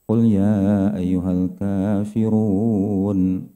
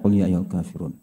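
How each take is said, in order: First: It is recited at a slower, measured pace. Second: It is recited at a quick pace. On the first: "Tapi kalau dengan tartil" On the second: "Kalau hadar misalnya, ... Cepat gitu"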